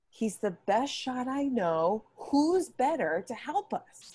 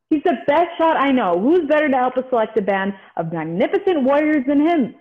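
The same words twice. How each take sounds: First: Slower, rising, pleading to persuade; slow down and win her over; slow convincing. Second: Hurried, rattled-off pitch to recruit; rushing through the argument; rushed line reading. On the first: Shown as a demonstration. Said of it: "So slow down and convince her". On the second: Acted. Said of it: "Slow down, slow down".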